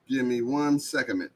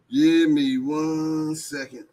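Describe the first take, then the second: First: Said in the usual way. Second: Slow, stretched out and higher; drawn-out repeat. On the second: Acted. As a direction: drag each word out lazily. Repeats line while typing link.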